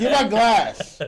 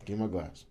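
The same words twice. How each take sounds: First: Slow, louder mock demand; calm turning angry. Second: Said in the usual way. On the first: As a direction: drag out a hammed-up demand. Repeats demand, slower, louder.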